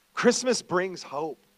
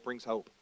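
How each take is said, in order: First: "Christmas brings hope" slow and louder, each word weighted; slow emphatic proclamation. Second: Said in the usual way. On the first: Shown as a demonstration.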